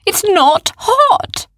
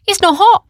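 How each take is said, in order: First: Slow, high, stretched insistence on hot; insisting. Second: Put-on raised, higher boy's voice. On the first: Acted. Oren insists to Arthur, slowly and high. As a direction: drag out "hot" with a rising lilt. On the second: Oren tells his worried friend, in a higher voice. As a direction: call it out lightly, surprised.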